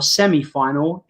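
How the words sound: It is said in an English accent.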